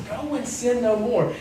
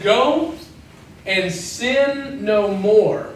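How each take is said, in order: First: Quiet. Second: "Go" lifted, then "and sin no more" drawn out very slowly; slow emphatic. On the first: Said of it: "He says". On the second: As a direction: let every word of "Go and sin no more" land slowly and heavily. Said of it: "something that's very important". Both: Shown as a demonstration.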